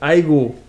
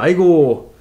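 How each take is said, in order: First: The last syllable is short and clipped. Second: The last syllable is stretched out long.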